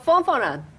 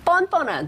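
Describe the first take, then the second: First: The word begins with an f sound. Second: The word begins with a tense p sound. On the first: The show is fun. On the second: The show is shameless.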